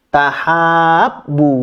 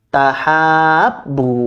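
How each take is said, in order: No difference in how they are said.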